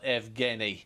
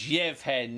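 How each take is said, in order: First: The name is said in a non-Ukrainian form. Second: The name is said in its Ukrainian form. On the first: The speaker calls it wrong. "not Evgeny" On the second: The speaker calls it right. "these are Ukrainian pronunciations, so it's Yevhen"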